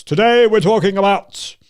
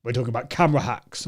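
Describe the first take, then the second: First: Loud, raised announcement with heavy gravity; hammed-up serious presenter; mock serious presenting. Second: Low, quick, unsmiling delivery; deadpan serious presenter. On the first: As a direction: overdo a stern show opening. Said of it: "if I was speaking like this". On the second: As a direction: drop it low and solemn. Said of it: "I was speaking very seriously like that". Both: Shown as a demonstration.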